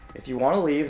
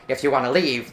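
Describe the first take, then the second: First: It is said in the speaker's normal voice. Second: It is said in an imitation of Monokuma's voice.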